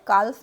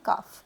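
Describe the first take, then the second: First: The L sound is pronounced. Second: The L sound is silent. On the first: The speaker calls it wrong. "काल्फ नहीं बोलेंगे" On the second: The speaker calls it right. "लेकिन इसमें एल silent है"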